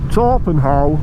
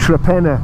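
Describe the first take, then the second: First: It is pronounced as written, Tor-pen-how. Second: It is pronounced in the local way, Tre-pen-na. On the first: "It's spelt Torpenhow" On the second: "we pronounce it Trepenna"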